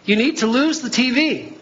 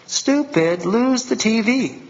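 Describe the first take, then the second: First: God's gentle voice. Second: Slow, scornful mock God voice, lightly done; mock harsh God. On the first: Retold or imitated. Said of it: "sometimes he will tell you". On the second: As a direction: play a contemptuous God snapping at a fool. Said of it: "And God goes".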